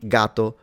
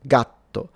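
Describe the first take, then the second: First: The t sound is short, with no hold. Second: The t sound is held, with a pause.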